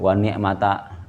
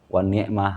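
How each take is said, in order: First: The word ends with a full final vowel. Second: The word ends in a clipped h sound. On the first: The recitation carries on without stopping. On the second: The recitation stops at this word.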